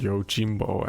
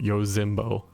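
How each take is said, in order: First: The middle consonant is a j sound. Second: The middle consonant is a z sound. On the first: The speaker calls it right. "with the Z to G" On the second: The speaker calls it wrong. "not ... Yozimbo or something like that"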